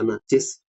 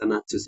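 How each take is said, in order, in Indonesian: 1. Suku kata kedua memiliki vokal i. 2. Suku kata kedua memiliki vokal u. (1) "bisa dibaca najis" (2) "Ada juga yang mengatakan bisa dibaca najus"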